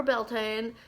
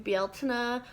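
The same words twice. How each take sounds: First: Beltane said slowly as "BEL-tayn"; anglicised pronunciation. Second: Bealtaine said slowly as "BYAL-tin-uh"; Irish-style pronunciation. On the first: Vlogger offering the other way to pronounce the festival, Beltane as two syllables. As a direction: say Beltane in two syllables, rhyming the end with "rain". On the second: Vlogger offering one way to pronounce the festival, Bealtaine with a "-nuh" ending. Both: Shown as a demonstration. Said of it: "depending on how you pronounce it".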